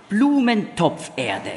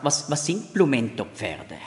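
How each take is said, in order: First: "Blumentopferde" slowly, split as Blumen-topf-erde; slow, well-separated Blumen-Topf-Erde in "Blumentopferde"; correct accent. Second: "Blumentopferde" split wrongly as Blumento-Pferde; wrong word break in "Blumentopferde", heard as Blumento-pferde; misplaced accent. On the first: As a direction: say "Blumentopferde" clearly as flowerpot soil, stress on BLU. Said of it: "den Akzent am richtigen Ort setzen". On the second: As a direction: say "Blumentopferde" as if it ended in Pferde, horses. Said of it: "man muss den Akzent am richtigen Ort setzen".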